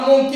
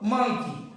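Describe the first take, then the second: First: The first vowel sounds like 'oh'. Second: The first vowel sounds like 'uh'. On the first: The speaker calls it wrong. "मंकी का मोंकी म्हणतो आपण" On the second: The speaker calls it right. "काय म्हणतो, मंकी"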